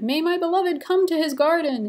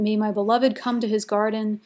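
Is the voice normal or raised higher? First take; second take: higher; normal. First: It is read in a higher, wife's voice. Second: It is read in the speaker's normal voice.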